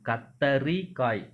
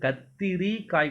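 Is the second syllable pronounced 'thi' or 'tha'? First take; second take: tha; thi. First: The second syllable has the vowel 'a'. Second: The second syllable has the vowel 'i'. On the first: The speaker calls it right. "தீ வரக்கூடாது, தா வரணும்" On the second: The speaker calls it wrong. "ஆக்சுவலா அது கத்திரி காய் கிடையாது"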